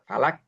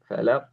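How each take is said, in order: First: It ends with a plain front k sound. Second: It ends with a deep throaty q sound. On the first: The speaker calls it wrong. "ada yang membaca falak. Falak. Itu salah" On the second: The speaker calls it right. "Padahal di situ qaf"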